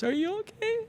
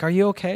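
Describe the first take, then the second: First: Very high, soft tearful squeak; high-pitched mock sobbing voice; imitated bawling. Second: Said in the usual way. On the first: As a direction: mimic a bawling wife asking after her husband. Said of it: "And she's bawling". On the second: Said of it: "And I'm like".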